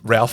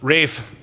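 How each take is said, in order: First: The name is said with an L sound. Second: The name is said without an L sound. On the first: The speaker calls it wrong. "It's not Ralph" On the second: The speaker calls it right. "I remembered that it's Rafe"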